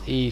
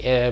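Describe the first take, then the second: First: The vowel is a long 'ee' sound. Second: The vowel is a short open 'eh' sound. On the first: This is how English says the letter. "in English it's E" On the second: This is how other languages say the letter. "for every other language it's like eh"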